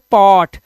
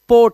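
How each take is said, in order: First: The vowel is an open 'aw' sound. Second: The vowel is a closed 'oh' sound. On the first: The speaker calls it right. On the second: The speaker calls it wrong. "पोट नहीं है"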